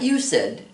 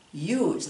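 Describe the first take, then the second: First: The ending is a separate syllable, two syllables. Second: The ending is a plain final sound, one syllable. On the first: The speaker calls it wrong. "not you said. ... you don't pronounce that ed" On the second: The speaker calls it right. "We say used"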